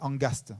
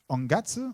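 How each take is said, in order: First: The word ends with an st sound. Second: The word ends with a ts sound.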